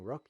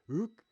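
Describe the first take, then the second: First: Said in the usual way. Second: "rook" with the r dropped, like "ook"; "rook" with a French throat r that almost vanishes; French way of saying rook. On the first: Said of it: "you say rook". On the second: Shown as a demonstration. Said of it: "Instead of saying rook".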